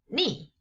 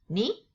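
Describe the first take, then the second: First: The pitch falls sharply from high to low. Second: The pitch rises from middle to high.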